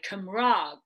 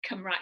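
First: Cymraeg said the way a North Walian mentor says it. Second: Cymraeg said the speaker's own southern way; South Walian Cymraeg. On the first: Retold or imitated. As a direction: Cymraeg in his northern pronunciation, said slowly. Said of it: "he would say Cymraeg". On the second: Shown as a demonstration. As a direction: Cymraeg in her usual southern pronunciation. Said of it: "Of course, I say Cymraeg".

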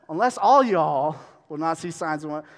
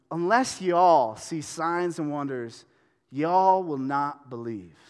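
First: Louder, playful "all y'all" reading; playful hint of Southern; louder Southern reread. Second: Slow, deliberate reread with "y'all"; mock Southern verse reading. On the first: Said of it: "I like to say all y'all". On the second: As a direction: read it slowly, leaning on "y'all". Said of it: "I'm gonna reread that phrase". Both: Shown as a demonstration.

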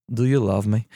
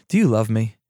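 First: Lightly put-on Russian dialect; slight Russian accent. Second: Said in the usual way. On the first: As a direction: slip into a mild Russian accent. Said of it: "I said I wasn't gonna do it". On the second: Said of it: "I'm not gonna do the Russian dialect".

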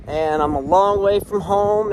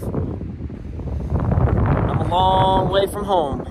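First: Said out with more push; proud emphatic line about being far from home; brighter emphatic repeat. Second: Very slow, drawn-out words; slow wistful musing far from home. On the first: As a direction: declare it proudly this time. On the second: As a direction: let it stretch out, savoring the distance. Reflecting on being far from Philly. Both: Real, not acted.

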